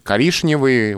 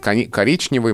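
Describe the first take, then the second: First: The middle consonant sounds like 'sh'. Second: The middle consonant sounds like 'ch'. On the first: This is the older way of saying it. "когда-то мы говорили, ну, не мы, наши предки" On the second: This is the newer way, closer to the spelling. "стали говорить"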